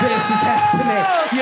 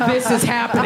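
First: Very high, slow mock wail; passengers' disbelief, drawn out. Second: Acted bystander remark, fairly contained; passengers' disbelief, first take. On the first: Passengers watch the fight on the night bus, high drawn-out disbelief. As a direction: stretch it out high as a stunned onlooker. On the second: Passengers watch the fight on the night bus, contained disbelief. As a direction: say it as an onlooker taking it in. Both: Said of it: "everyone was sitting there like".

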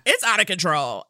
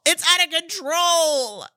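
First: Said in the usual way. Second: Excited repeat. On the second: Shown as a demonstration.

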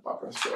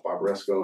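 First: Italian-style pronunciation. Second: Said in the usual way. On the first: Retold or imitated. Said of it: "'cause she's Italian". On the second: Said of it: "I was like, "Barbaresco".

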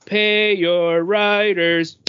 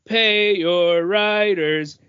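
No difference in how they are said.

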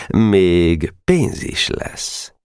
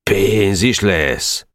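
First: Very slow, drawn-out offer; enticing promise. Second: Very slow, drawn-out pénz is lesz as a question; Janó's question. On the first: Schemer bribing Janó with money, slow and enticing. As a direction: let the promise of pénz hang. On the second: Janó checking the promised bribe, slowly questioning. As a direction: stretch the words out, weighing the offer. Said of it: "kérdezte Janó". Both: A narrator's reading.

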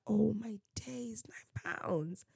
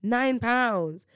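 First: Slow, hushed retold disbelief; hushed shock. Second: Higher, voiced disbelief at the price; retold disbelief. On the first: Speaker recalls seeing the nine pounds price, hushed shock. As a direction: drop to a soft, stunned near-whisper. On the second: Speaker recalls reacting to the nine pounds price, disbelief. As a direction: repeat the price aloud, pitched up in shock.

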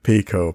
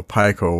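First: Pico said as PEE-koh; PEE-koh pronunciation. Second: Pico said as PY-koh; PY-koh pronunciation. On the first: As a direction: give Pico a long ee in the first syllable. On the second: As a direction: give Pico a long i as in "pie". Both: Shown as a demonstration. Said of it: "how you wanna pronounce it".

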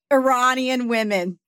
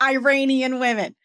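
First: Iranian said ih-RAH-nee-un; Iranian, stressed syllable like "rah". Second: Iranian said eye-RAY-nee-un; Iranian, stressed syllable like "ray". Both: Shown as a demonstration. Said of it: "Not Iranian women".

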